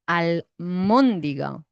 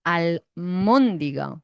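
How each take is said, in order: First: It has an m sound before the stressed vowel. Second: It has an m sound before the stressed vowel.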